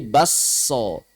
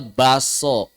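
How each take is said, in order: First: The k merges into a long doubled s. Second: The k is dropped, leaving a plain s. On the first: This is how Bugis speakers say it. "tapi diidgham menjadi basso" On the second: This is how most Indonesians say it. "Orang Indonesia secara umum hadaf, bacanya baso"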